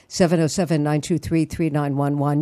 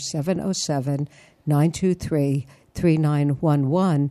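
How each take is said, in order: First: The number is said at normal, quicker speed. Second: The number is said more slowly.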